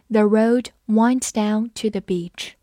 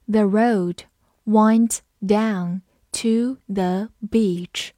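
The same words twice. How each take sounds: First: Said in the usual way. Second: Very slow, careful read-aloud; teacher leading a slow repeat-after-me. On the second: Shown as a demonstration. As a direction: say it slowly so students can follow. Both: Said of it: "好，跟着我慢读一遍。".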